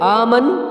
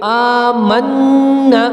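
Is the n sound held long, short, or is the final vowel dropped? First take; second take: dropped vowel; long. First: The word stops without its final vowel. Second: The n sound is doubled and held long. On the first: The speaker calls it wrong. "आमन तो भी गलत है" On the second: The speaker calls it right. "नून पे तशदीद आ गई है, तो इसको हम पढ़ेंगे आमन्ना"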